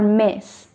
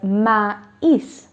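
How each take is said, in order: First: The vowels merge into a single vowel sound. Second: The two vowels are pronounced as separate syllables. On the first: The speaker calls it wrong. "not me or mes" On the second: The speaker calls it right. "I will pronounce it as maïs"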